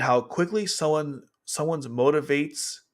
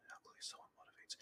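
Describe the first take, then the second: First: Said in the usual way. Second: Barely audible, rushed whisper; whispered reread. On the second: Real, not acted. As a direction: reread it under your breath, quickly. Rereads garbled phrase under breath.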